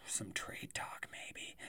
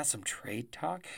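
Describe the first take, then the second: First: Sighing hushed whisper. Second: Said in the usual way. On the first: Pretend. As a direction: tease it in a whisper. Teasing upcoming trade talk.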